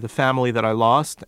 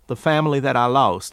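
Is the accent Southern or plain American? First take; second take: plain American; Southern. First: It is said in plain American speech. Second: It is said in a Southern accent.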